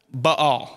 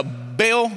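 First: Baal as "buh-AHL", two syllables; correct pronunciation of Baal. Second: Baal as one drawn-out syllable, "bale"; southern Missouri pronunciation. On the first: Preacher demonstrating the stuttering-sounding word, Baal said correctly as buh-AHL. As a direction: break Baal into a short "buh" and a stressed "AHL". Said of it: "the correct pronunciation of that word". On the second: Preacher opting for southern Missouri with congregation, Baal said as one-syllable "bale". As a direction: say Baal slowly, rhyming with "pail". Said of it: "say it like we're from southern Missouri".

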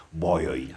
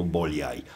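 First: Put-on "Bolyai" said as Boy-oy, with a y sound and no l; "Bolyai" said the Hungarian way, Boy-oy; Hungarian pronunciation. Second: "Bolyai" said as Bo-li-ai, with a clear l sound; "Bolyai" pronounced letter by letter, Bo-li-ai; spelled-out pronunciation. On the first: Vlogger says "Bolyai" as Boy-oy, the way his mother-in-law likes. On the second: Vlogger sets aside the spelling-based "Bolyai" said Bo-li-ai. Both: Shown as a demonstration. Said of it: "așa îi place la soacra mea să pronunț".

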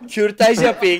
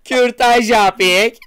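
First: Higher-pitched mock announcement; mock slogan call. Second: Very slow, high, loud call; drawn-out mock slogan. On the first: Repeating the slogan to amuse friends, mock call. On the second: Milking the slogan for laughs, slow mock shout. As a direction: stretch every syllable in a hammed-up cry.

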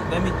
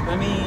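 The two takes are said the same way.

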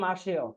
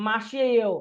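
First: "মাসেও" run together as ma-she-o; "মাসেও" with shi-e merged into one she; contracted pronunciation. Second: "মাসেও" drawn out as three parts, ma-shi-eyo; "মাসেও" said in full as mashi-eyo, before contraction; spelled-out form. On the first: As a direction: say "মাসেও" smoothly as masheo, no i. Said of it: "উচ্চারণ হবে". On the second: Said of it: "উচ্চারণ হবে মাসেও". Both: Shown as a demonstration.

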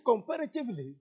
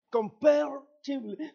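First: Said in the usual way. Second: "comparatively" squeezed, with a middle syllable dropped; stumbled pronunciation. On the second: Real, not acted. Preacher tripping on a long word mid-sermon, stumbled pronunciation. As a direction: trip over "comparatively", saying it like "compair-tively".

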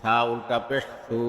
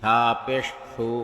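First: Final "সু" held long; drawn-out vowel. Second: Final "সু" cut short; quick short vowel. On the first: Teacher demonstrating ulta pesh, long "সু". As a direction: stretch the last "সু" for one alif. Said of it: "একালিপ টেনে পড়তে". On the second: Teacher demonstrating normal pesh, short "সু". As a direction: keep the last "সু" brief, not held. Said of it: "তাড়াতাড়ি করতে হয়". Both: Shown as a demonstration.

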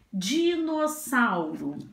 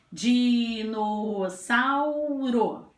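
First: Said in the usual way. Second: "Dinossauro" drawn out as "Diii-nooo-sauu-ro"; four long linked beats on "Dinossauro"; slow, stretched. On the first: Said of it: "Vamos à próxima palavrinha". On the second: Shown as a demonstration. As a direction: say "Dinossauro" very slowly, holding every vowel. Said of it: "Vou falar a palavra devagar".

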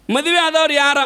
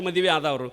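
First: ಮದುವೆ ಆದವ್ರು ಯಾರ said louder, ಮದುವೆ punched; emphatic question. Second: Said in the usual way. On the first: Shown as a demonstration. Preacher to the audience, ಮದುವೆ hit hard and loud. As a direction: call out ಮದುವೆ to the crowd. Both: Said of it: "repeated louder".

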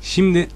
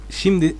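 Both takes have the same delivery.

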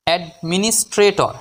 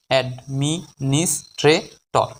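First: Said in the usual way. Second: Very slow, five separated syllables; drawn-out teaching breakdown of the word. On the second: Shown as a demonstration. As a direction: leave a gap after each syllable. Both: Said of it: "পাঁচটি সিলেবালে ভাঙতে পারবো".

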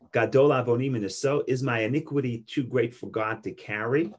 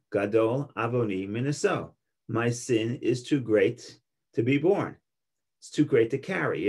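First: Rising question tune at the end, "carry" lifted up; read as a question. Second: Falling statement tune, "borne" and "carry" drop flat; read as a statement. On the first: Teacher reading Cain's words to class as a question, rising tune. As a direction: ask it, let "too great" and "carry" rise. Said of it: "they ask it as a question". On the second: Teacher reading Cain's words to class as a flat statement, falling tune. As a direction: state it, let each phrase fall. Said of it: "it's a statement". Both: Shown as a demonstration.

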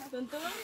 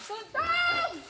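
First: Said in the usual way. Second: Very high, drawn-out call; high-pitched cry. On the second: Pretend. Playing an imitation game with friends, high-pitched cry. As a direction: send the name way up high.

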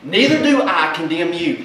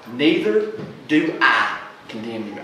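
First: Said in the usual way. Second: Gently forgiving Jesus; tender quote. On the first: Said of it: "I love that". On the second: Acted. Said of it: "resonate loud and clear in your heart".

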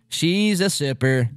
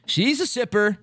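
First: She's hit, said slowly; stress on She's. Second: Said in the usual way. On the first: Shown as a demonstration. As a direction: lean on She's, drawn out.

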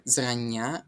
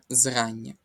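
First: "зрання" stressed on the final "ня"; wrong stress. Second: "зрання" stressed on the first syllable, "зра"; correct stress. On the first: Teacher shows the mistaken stress, last syllable of "зрання". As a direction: say "зрання" as зранНЯ, drawing out the last vowel. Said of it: "І не зрання". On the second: Teacher corrects the test's mistake, first-syllable stress on "зрання". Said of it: "а зрання". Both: Shown as a demonstration.

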